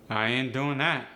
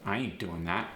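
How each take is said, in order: First: AAVE, louder with a falling end; punchy AAVE intonation, dropping on that. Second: Neutral standard American, no punch. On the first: Teacher showing dialect intonation against standard, AAVE. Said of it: "end with a rising or falling intonation". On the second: Teacher giving the standard intonation first, standard American. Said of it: "In standard American English, I might say". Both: Shown as a demonstration.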